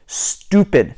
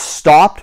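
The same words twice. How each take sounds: First: "stopped" slow, with OO, as stoo-pid; British-style STOPPED. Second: Said in the usual way. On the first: Shown as a demonstration. Giving learners the replacement, "stopped" as stoo-pid. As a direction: say "stopped" like stupid. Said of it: "it's stupid". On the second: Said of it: "if it's stopped".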